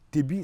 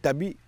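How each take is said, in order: First: The first vowel is an 'e' sound. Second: The first vowel is an open 'a' sound. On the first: This is the local Diola name. "c'est en Diola. C'est une prononciation Diola" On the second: This is the official administrative name. "administrativement, on connaît le village par Tabi"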